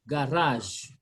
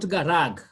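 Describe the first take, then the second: First: GARAGE ending on a French J sound; correct French pronunciation. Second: GARAG with a hard G at both ends; wrong final G. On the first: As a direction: say GARAGE as "ga-razh". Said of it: "we say garage". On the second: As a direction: misread GARAG as "ga-rag". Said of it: "Not garag". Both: Shown as a demonstration.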